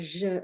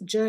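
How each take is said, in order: First: The consonant is a soft 'zh' sound, as in French. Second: The consonant is a 'dj' sound, as in judge. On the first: "like juge in French" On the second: "like in judge"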